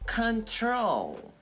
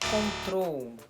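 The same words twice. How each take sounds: First: The stress is on the second syllable. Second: The stress is on the first syllable. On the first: The speaker calls it right. "é control, tá? O acento, a entonação, ela vai ser na segunda sílaba" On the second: The speaker calls it wrong. "Não é control"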